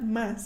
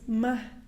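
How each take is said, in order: First: The final S sound is clearly pronounced. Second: The final S sound is dropped. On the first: "is not más" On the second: "there's like a dropped S at the end"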